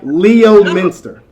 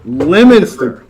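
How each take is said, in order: First: The name begins with 'Leo', then 'minster'. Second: The name begins with 'Lem', then 'ster'. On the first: The speaker calls it wrong. "it feels like Leo Minster, but I know it's not that" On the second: The speaker calls it right. "It's Lemonster"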